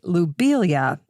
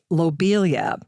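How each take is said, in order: First: The first syllable has the vowel of 'loo'. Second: The first syllable has the vowel of 'low'. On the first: The speaker calls it right. "I'm going to say Lobelia instead. Lo versus Lou, but Lou would be the more correct pronunciation" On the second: The speaker calls it wrong. "I used to say Lobelia"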